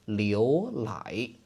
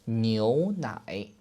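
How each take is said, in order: First: The word begins with an l sound. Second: The word begins with a nasal n sound. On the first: It is not a real word. The speaker calls it wrong. "with a very strong southern accent" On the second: It means milk. The speaker calls it right. "nasal sound, which means milk"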